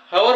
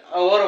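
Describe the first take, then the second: First: हवर with the silent h sounded at the front; wrong reading with H. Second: अवर starting straight on the vowel, no h; correct silent-H reading. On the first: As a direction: say हवर, voicing a clear h first. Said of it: "याला आपण हवर वाचत नाही". ('ह' उच्चारून केलेले चुकीचे वाचन: हवर) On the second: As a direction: say अवर slowly, leaving the h silent. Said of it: "तर अवर वाचतो". ('ह' सायलेंट ठेवून अवर) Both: Shown as a demonstration.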